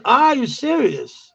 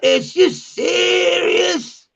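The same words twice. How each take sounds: First: ARE said in full, raised pitch; a higher, correctly worded "ARE you serious"; proper English. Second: Very high, long drawn-out SERIOUS; stretched, hammed-up street outrage; mock incredulous slang. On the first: Shown as a demonstration. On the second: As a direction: imitate slangy disbelief, slow and high. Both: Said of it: "That's proper English".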